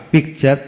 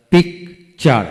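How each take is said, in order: First: Said in the usual way. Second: picture in two beats, pik, char; split into syllables. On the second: Shown as a demonstration. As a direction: pause after পিক in picture. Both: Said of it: "যতটুকু অংশ একসাথে উচ্চারণ".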